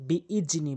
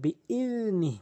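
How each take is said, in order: First: The middle consonant is a 'j' sound. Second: The middle consonant is a soft 'dh' sound. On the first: The speaker calls it wrong. "অধিকাংশ লোক বিইজনি বলে" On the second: The speaker calls it right. "এখানে জালের উচ্চারণ করতে হবে"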